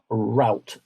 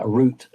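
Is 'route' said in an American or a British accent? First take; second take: American; British. First: It is said with an American accent. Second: It is said with a British accent. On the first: "as the Americans would say" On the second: "as we say here"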